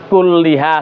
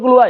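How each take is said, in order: First: The vowel after the double l is i. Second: The vowel after the double l is u. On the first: The speaker calls it wrong. "jangan kulliha salah" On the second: The speaker calls it right. "yang betul kulluha"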